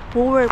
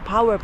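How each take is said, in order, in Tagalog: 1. Binibigkas ito ayon sa nakasulat, sa paraang Finnish. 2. Binibigkas ito sa karaniwang paraang Ingles. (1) "Pero pag binabasa namin yan siya dito" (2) "Kung babasahin mo sa English"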